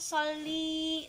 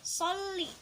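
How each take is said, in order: First: The final vowel is held long. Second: The final vowel is kept short. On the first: The speaker calls it wrong. "jangan sholli. Nah, itu kepanjangan" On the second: The speaker calls it right. "harus sholli"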